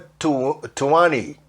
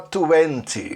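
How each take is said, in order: First: The t after the n is dropped. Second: The t after the n is pronounced. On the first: This is how people commonly say it. "o T vira Ni" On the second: This is the form learners usually learn. "Não que você não possa falar vinte"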